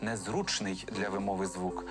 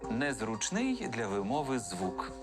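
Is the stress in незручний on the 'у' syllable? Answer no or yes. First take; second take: yes; no. First: The stress in незручний is on 'у'. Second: The stress in незручний is not on 'у'. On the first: The speaker calls it right. "наголос має падати на «у»" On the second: The speaker calls it wrong. "Ні, наголос має падати на «у»"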